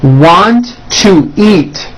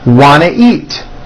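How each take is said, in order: First: Each word is said separately and in full. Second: The words are squeezed together into a reduced form.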